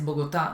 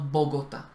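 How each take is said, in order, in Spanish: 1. El acento no está en la primera sílaba. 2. El acento está en la primera sílaba. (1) "que Bogotá es Bogotá" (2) "no Bogotá"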